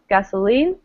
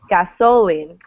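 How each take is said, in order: First: The stress is on the last syllable. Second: The stress is on the middle syllable. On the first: The speaker calls it right. "stressing the last syllable" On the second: The speaker calls it wrong. "you would never say"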